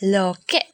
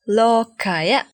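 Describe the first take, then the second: First: The word ends with a short 'e' sound. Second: The word ends with a full 'aya' syllable. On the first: This is the everyday spoken form. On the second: This is the full dictionary form.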